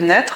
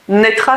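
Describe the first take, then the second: First: The word ends without a final 'a' vowel. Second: The word ends with a final 'a' vowel.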